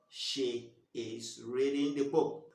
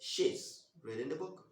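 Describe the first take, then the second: First: The words she is are said in full. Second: The words she is are contracted into one. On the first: "instead of saying she is" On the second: "you've reduced she is to she's"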